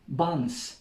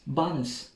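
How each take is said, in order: No difference in how they are said.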